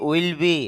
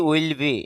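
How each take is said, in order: Both takes have the same delivery.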